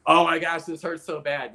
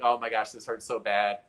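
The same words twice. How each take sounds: First: Higher and louder, a touch of remembered pain; mock pained exclamation. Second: Said in the usual way. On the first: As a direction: exclaim it like the ache just hit you.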